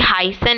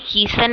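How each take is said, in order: First: The first vowel sounds like 'eye'. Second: The first vowel sounds like 'ee'. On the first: The speaker calls it right. "ये हाइसन है" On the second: The speaker calls it wrong. "हीसन नहीं है"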